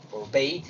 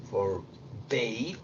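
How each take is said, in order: First: "Forbade" said clearly as /forbeit/; corrected take. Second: "Forbade" dicho suave, bajo y con subida, como /forbe/; soft rising "Forbade"; first take. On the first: ("Forbade" corregido, pronunciado /forbeit/) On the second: ("Forbade" bajito y con tono de pregunta) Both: Shown as a demonstration. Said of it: "Esto es una A, sorry".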